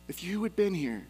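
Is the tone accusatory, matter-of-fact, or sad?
sad. It is said in a sad tone.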